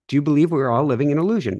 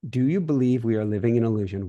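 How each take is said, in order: First: It is said fast and chipper. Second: It is said more slowly.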